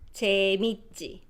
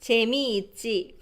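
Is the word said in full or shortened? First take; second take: shortened; full. First: It is said quickly with syllables merged. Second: All syllables are said fully and slowly.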